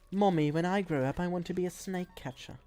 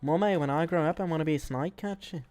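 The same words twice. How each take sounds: First: It has a weak, unconvincing Australian accent. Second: It has a noticeably stronger Australian accent. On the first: The speaker calls it wrong. "That does not sound Australian" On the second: The speaker calls it right. "That did sound more Australian than the first attempt"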